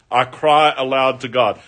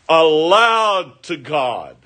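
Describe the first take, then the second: First: Said in the usual way. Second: "aloud to God" slowed right down, aloud raised and leaned on; drawn-out stress on aloud. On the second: Shown as a demonstration. Preacher dwelling on the psalmist's cry, slow stress. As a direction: stretch out "aloud to God" slowly. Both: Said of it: "He is shouting out".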